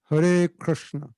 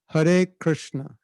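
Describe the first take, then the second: The two takes are said the same way.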